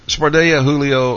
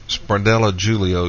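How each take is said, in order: First: Spardella's double L as a Y, Julio starting with H; Spanish pronunciation. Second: Spardella with sounded L's, Julio starting with a J; Portuguese pronunciation. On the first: Host asking how a name is said, Julio with an H sound. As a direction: say Julio as "HOO-lee-oh" after "spar-DAY-a" for Spardella. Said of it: "with the Spanish pronunciation". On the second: Host asking how a name is said, Julio with a J sound. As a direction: say Julio as "JOO-lee-oh" after "spar-DELL-a" for Spardella. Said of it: "with the Portuguese pronunciation". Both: Shown as a demonstration.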